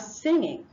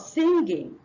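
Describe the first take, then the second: First: It has a plain ng sound. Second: It has a hard g sound. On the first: The speaker calls it right. "the N and the G gives you the ng sound" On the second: The speaker calls it wrong. "instead of"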